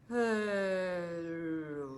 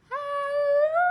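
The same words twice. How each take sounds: First: It is said in a very low voice. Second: It is said in a very high voice.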